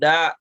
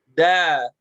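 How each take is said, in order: First: The vowel is cut off abruptly with a catch. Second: The vowel is released and trails off openly. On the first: The speaker calls it wrong. "ditekan-tekan belakangnya" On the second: The speaker calls it right. "Da harusnya dilepas suaranya"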